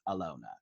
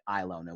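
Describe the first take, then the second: First: The name begins with an A vowel sound. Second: The name begins with an I vowel sound. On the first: The speaker calls it right. "when it's Alona" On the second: The speaker calls it wrong. "I'm seeing the I and I'm wanting to make that the focal point"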